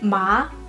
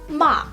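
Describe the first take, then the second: First: The pitch rises from mid to high. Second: The pitch falls sharply from high to low. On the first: "the second tone with ma" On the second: "and then ma"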